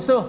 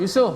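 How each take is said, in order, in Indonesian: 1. Vokal pertama diucapkan pendek. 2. Vokal pertama diucapkan pendek.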